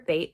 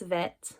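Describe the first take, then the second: First: It begins with a hard b sound. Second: It begins with a soft v sound. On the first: The letter has a dot inside it. "hard plosive sound when it's inside the letter" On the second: The letter has no dot inside it. "when there's no Dagesh"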